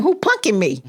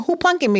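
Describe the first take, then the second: First: Plain puzzled asking; disbelief. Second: Pitched high, incredulous. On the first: To the sheriff at her door, puzzled question. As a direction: ask it half to herself. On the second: To the sheriff at her door, incredulous high question. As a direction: throw it up high in disbelief. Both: Retold or imitated.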